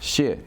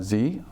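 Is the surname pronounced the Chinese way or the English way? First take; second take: Chinese; English. First: The name is said with Chinese pronunciation. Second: The name is said as an English-style 'Z' sound. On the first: "the Chinese way of uh, pronouncing my last name" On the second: "my colleagues, uh, for the many of them call me"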